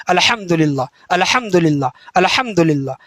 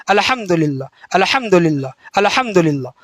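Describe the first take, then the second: The two takes are said the same way.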